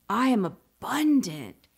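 It is said with strong, heartfelt feeling.

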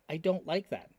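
It is read in Natalie's character voice.

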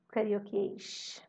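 It is said in a Carioca accent.

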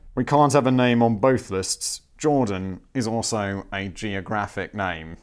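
It is read in a put-on imitating voice.

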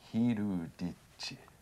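The name is said with Japanese sounds. "had been transformed into Hiruditchi"

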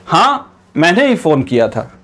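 There is a short pause after हां.

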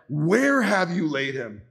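It is said with sorrow, anger and emotion.

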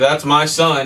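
It sounds ashamed and reluctant.

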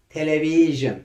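The word is said with English pronunciation. "Bak, ne kadar zor"

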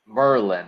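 It is said the way locals say it.

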